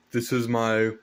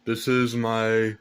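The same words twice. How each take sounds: The two takes are said the same way.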